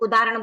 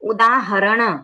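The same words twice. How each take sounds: First: The middle 'h' sound is dropped. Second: The middle 'h' sound is clearly pronounced. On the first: The speaker calls it wrong. "कभी कभी कोई लोग उदाहरण बोल देते हैं, ह नहीं आता है" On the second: The speaker calls it right. "यहाँ पर हमको पूरा शब्द बोलना है"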